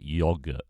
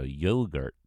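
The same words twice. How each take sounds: First: "yogurt" with short o, YOG-uh; British pronunciation. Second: "yogurt" as American YOH-gurt; American accent. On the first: Brit showing viewers the home version, "yogurt" as YOG-uh. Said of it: "we call it yogurt". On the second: Brit asked for best American accent, says "yogurt" American-style. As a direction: put on American long o and r in "yogurt". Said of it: "In your best American accent". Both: Shown as a demonstration.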